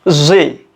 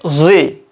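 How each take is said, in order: First: It is said the American way, as zee. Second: The same.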